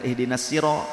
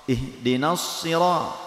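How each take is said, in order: First: The s is a plain, light s sound. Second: The s is a heavy, emphatic s sound. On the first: The speaker calls it wrong. "jangan sin" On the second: The speaker calls it right. "tapi sod"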